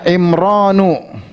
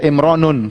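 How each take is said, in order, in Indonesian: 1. Kata ini diakhiri vokal biasa, tanpa n. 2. Kata ini diakhiri dengan bunyi n tambahan. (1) "Contohnya Imranu" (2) "jangan baca Imranun, keliru"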